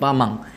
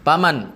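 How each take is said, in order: First: The word ends with an ng sound. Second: The word ends with an n sound. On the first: The speaker calls it wrong. "Bukan pamang" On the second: The speaker calls it right.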